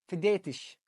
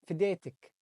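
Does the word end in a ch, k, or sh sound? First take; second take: sh; k. First: The word ends with an sh sound. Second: The word ends with a k sound. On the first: "نحط حرف الشين بدل الكاف" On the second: "سهلة بيها حرف الكاف"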